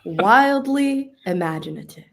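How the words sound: It is said in an imitated, put-on voice.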